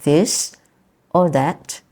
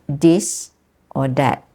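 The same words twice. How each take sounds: First: The words begin with a soft th sound. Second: The th sound is replaced by another sound. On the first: "instead of saying this or that" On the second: "the th sound does not exist in Bahasa Melayu"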